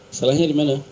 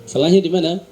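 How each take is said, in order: The two takes are said the same way.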